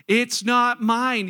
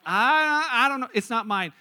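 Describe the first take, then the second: First: "It's not mine" very slow and loud; emphatic declaration. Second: Hesitant "I don't know", then "It's not mine" dropping away; reluctant admission. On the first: Shown as a demonstration. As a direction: proclaim "It's not mine", stretching each word loudly. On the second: Acted. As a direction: stall on a loud "I", then concede "It's not mine" quickly. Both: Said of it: "you just can't say that yet".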